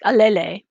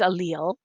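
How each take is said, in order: First: The word is sounded out as its spelling suggests. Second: The word is said with its standard pronunciation. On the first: The speaker calls it wrong. "I know it looks like allele, but it's not" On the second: The speaker calls it right. "It's allele"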